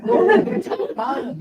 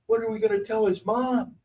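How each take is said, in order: First: High, laughing repeat of the worry; laughing mock panic. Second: Worried higher voice. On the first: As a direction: squeal it through a laugh. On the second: Retold or imitated. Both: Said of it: "Lee looks at me and goes".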